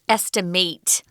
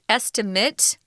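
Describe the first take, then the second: First: It is pronounced as the verb form. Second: It is pronounced as the noun form. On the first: It names the action of estimating. "the pronunciation is estimate" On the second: It names a calculated guess. "That is pronounced estimate"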